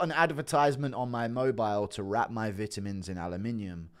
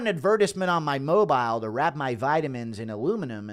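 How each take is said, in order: First: It is read in a British accent. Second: It is read in an American accent. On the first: "That's the British pronunciation" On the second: "What's the American pronunciation of that?"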